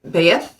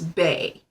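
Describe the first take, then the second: First: The word ends with a 'th' sound, like 'beeth'. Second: The word ends on a vowel, like 'bay'. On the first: The speaker calls it wrong. "but that's not how it's pronounced" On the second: The speaker calls it right. "how it's pronounced is Bay"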